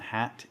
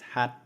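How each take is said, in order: First: The final t is released with a puff of air. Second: The final t stops suddenly with no release. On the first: The speaker calls it wrong. "It's not hat" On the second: The speaker calls it right. "it's hat"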